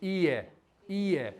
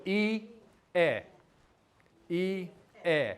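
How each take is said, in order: First: I, eh run together quickly as one word; quick natural demo; said fast. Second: I, eh drawn apart into two slow syllables; slow teaching demo. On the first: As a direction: say I, eh fast, blending the sounds. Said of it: "Say it fast". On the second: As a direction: say I, eh slowly, syllable by syllable. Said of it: "if I say it slow". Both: Shown as a demonstration.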